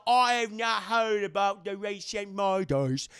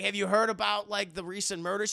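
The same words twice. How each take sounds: First: Loud, slow, exaggerated British accent; mock British accent. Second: Said in the usual way. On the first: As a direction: put on a hammed-up British voice, stretching the words. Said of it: "starts talking with a British accent". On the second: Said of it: "'Cause she's like".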